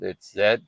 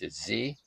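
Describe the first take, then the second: First: The letter is pronounced 'zed', the non-American way. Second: The letter is pronounced 'zee', the American way.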